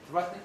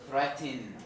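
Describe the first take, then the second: First: The final n is syllabic with no vowel before it. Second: A short vowel comes before the final n. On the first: "without any insertion" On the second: "inserting some kind of short vowel"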